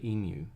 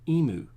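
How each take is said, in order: First: The vowel after the m is 'yoo'. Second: The vowel after the m is plain 'oo'. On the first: The speaker calls it right. "people in the know say emu" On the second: The speaker calls it wrong. "a lot of Americans ... say emu"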